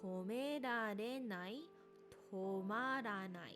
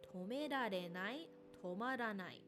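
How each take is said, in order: First: The phrase is said at a slow pace. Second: The phrase is said at a moderate pace.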